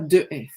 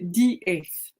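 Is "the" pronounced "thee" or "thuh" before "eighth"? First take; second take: thuh; thee. First: The word before eighth sounds like thuh. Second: The word before eighth sounds like thee. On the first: The speaker calls it wrong. "et non pas de S" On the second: The speaker calls it right. "On va prononcer D S"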